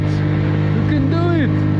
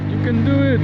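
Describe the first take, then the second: First: Very high, loud, slow cheer; drawn-out cheer. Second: Very high, loud cheer; cheering shout. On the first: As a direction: stretch out the cheer. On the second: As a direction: cheer them on. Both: Real, not acted. Cheering friend on.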